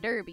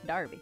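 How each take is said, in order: First: The first vowel sounds like 'er'. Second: The first vowel sounds like 'ar'. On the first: The speaker calls it wrong. "Instead of Derby, you would think it's Derby, but no" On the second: The speaker calls it right. "Pronounced Darby"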